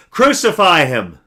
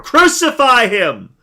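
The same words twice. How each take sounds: First: Higher, much louder, slow shout; a crowd calling for death. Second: Much higher, much louder, very slow drawn-out shout; the mob roaring even more; crowd shouting louder. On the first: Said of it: "they shouted back". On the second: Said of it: "they shouted all the more". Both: A narrator's reading.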